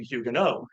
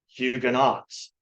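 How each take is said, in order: First: The name has a pronunciation closer to French. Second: The name has a familiar English-style pronunciation. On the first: This is the form used by experts in England. "which is a little closer to the French pronunciation" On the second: This is the form commonly heard growing up. "you grew up hearing about this group of people being called Huguenots"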